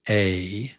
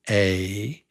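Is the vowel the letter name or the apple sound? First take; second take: letter name; letter name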